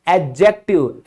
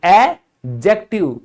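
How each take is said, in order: First: एडजेक्टिव said with the d silent, ed-jektiv; correct pronunciation. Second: एडजेक्टिव slowly, jektiv with no d sound; slow correct pronunciation. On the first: Teacher correcting students' pronunciation of एडजेक्टिव. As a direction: say एडजेक्टिव the right way, without the d. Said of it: "जो कि उच्चारण बिल्कुल गलत है". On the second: Teacher slowly modelling एडजेक्टिव for the class. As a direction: stretch out एडजेक्टिव, the d silent. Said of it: "भूल जाओ कि यहां पर डी लिखा हुआ है". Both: Shown as a demonstration.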